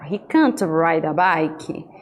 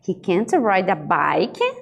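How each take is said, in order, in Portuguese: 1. A entonação cai no final. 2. A entonação sobe no final. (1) "Também é uma entonação decrescente" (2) "com um tom de surpresa. ... uma entonação crescente no final"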